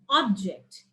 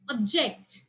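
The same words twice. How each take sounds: First: The stress is on the first syllable. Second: The stress is on the second syllable. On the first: It is used as a noun. "the next noun is is object" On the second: It is used as a verb. "and here is object"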